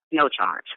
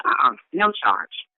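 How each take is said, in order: First: Said in the usual way. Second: High and slow on no charge; insisting it costs nothing; emphatic refusal. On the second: Retold or imitated. Refusing payment, then repeating.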